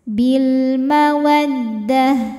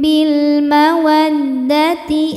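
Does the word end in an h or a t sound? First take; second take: h; t. First: The last word ends in an h sound. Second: The last word ends in a t sound and vowel. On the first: The reciter stops after this word. "berhenti di tak marbutoh maka jadi hak sukun ya, hak besar" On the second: The reciter continues without stopping. "ini tetap tak kalau tidak berhenti"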